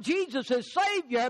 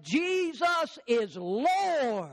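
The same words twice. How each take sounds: First: "Savior" said in passing at normal pace; set aside as wrong. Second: Slow, drawn-out "Jesus is Lord"; emphatic declaration. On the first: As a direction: run through "Jesus is Savior" briskly, as the rejected one. Rejected phrase against the confession. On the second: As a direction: proclaim it word by word, stretching "Lord" long. True confession set against the rejected. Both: Real, not acted.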